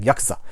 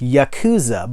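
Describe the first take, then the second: First: It is said with a Japanese pronunciation. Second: It is said with an American pronunciation. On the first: The speaker calls it right. "true Japanese would be like" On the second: The speaker calls it wrong. "Americans have a tendency to be like"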